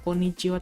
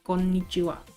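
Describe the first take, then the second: First: The n consonant is short, not doubled. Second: The n consonant is held long, doubled. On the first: The speaker calls it wrong. "Bukan konnichiwa" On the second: The speaker calls it right. "tapi konnichiwa"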